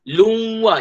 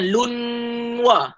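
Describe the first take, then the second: First: The nasal merges fully into the w sound. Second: A separate n is heard before the w. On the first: The speaker calls it right. "Masuk dalam huruf waw" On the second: The speaker calls it wrong. "jangan lunwa"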